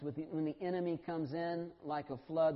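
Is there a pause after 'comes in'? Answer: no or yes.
no. There is no pause after 'comes in'. The enemy comes with the force of a flood. The speaker calls it wrong. "we put our commas and our pauses in the wrong places"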